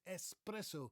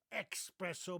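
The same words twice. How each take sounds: First: "espresso" as es-PRESS-o; correct espresso. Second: "espresso" as ex-PRESS-o; "espresso" said like the word express; mispronounced espresso. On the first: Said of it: "But it's". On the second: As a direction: put a wrong k sound in "espresso". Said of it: "It's not". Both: Shown as a demonstration.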